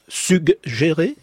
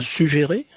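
First: A 'g' sound is heard before the 'j'. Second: No 'g' sound is heard before the 'j'. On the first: The speaker calls it right. "On prononce bien le G" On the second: The speaker calls it wrong. "et pas"

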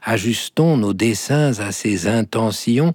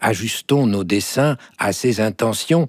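First: The words are said with a linking sound. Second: The words are said without the linking sound. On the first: "si on fait la petite liaison" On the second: "la liaison est affectée, diraient"

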